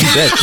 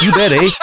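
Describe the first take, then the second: First: Said in the usual way. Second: Put-on playful Canadian accent; hammed-up Canadian accent, laughing. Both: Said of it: "my Canadian accent".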